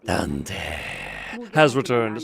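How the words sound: It is said in a put-on character voice.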